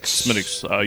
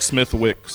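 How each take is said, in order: First: The 'th' and 'w' sounds are silent. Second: The 'th' and 'w' sounds are pronounced. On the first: The speaker calls it right. "You'll make some people angry if you pronounce it otherwise" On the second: The speaker calls it wrong. "Reads like Smithwick's"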